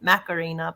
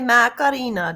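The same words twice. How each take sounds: First: It is said with an English pronunciation. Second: It is said with a Spanish pronunciation. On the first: This is how the speaker's own country says it. "we pronounce it Macarena" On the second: This is how the song's original singers say it. "the actual way that it's pronounced"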